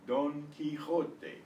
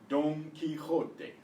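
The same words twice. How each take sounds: Both takes have the same delivery.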